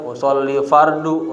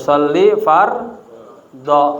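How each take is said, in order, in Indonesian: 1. Kata kedua berakhir dengan vokal 'u'. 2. Kata kedua berakhir dengan vokal 'a'. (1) "saya mah ngomong fardu-fardu saya" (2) "Maf'ul bih dibaca fathah, maka fardho"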